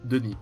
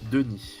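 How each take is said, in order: First: The name is said at a normal pace. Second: The name is said slowly and carefully.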